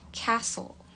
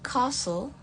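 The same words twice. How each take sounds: First: It is said in an American accent. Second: It is said in a British accent. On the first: "Untuk American" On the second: "Untuk British"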